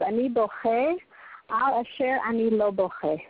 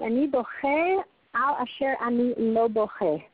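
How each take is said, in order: First: Said in the usual way. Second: "Ani boche al asher ani lo boche" said slowly, each word set apart; slow, weighted repeat. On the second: Shown as a demonstration. Teacher repeating the soldier's words to the class, slow and deliberate. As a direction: let the Hebrew line sink in slowly. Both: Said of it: "So, you hear that?".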